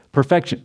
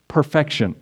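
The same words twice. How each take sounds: First: Laughing. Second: Said in the usual way. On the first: Real, not acted. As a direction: say perfection with a short laugh. Repeats the word with a laugh.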